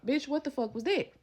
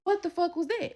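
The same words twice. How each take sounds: First: Higher, demanding; calling after the friend, furious; angry yell. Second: Much higher, pressing; demanding an answer again; furious repeat. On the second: Repeating it, louder. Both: Retold or imitated.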